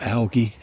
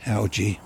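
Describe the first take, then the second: First: "algae" with a hard g, as in "get"; hard-g pronunciation. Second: "Algae" with a soft g, as in "gem"; soft-g pronunciation. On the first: Unsure of the word while describing gravestones, hard-g pronunciation. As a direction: say "algae" as AL-ghee. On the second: Trying the word another way on gravestones, soft-g pronunciation. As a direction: say "Algae" as AL-jee. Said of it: "is it, or algae". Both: Shown as a demonstration.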